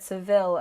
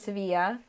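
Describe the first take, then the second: First: The name is said with English sounds, ending '-vil'. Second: The name is said with Spanish sounds, ending '-ya'. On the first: "that's how you say it in English" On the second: "That's the correct Spanish pronunciation"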